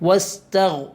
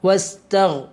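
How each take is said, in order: The two takes are said the same way.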